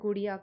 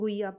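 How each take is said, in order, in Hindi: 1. Guhiya में बीच का व्यंजन flapped r ध्वनि है। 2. Guhiya में बीच का व्यंजन h ध्वनि है। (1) "दे कॉल इट गुड़िया करके" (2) "अपन गुहिया पढ़ते हैं"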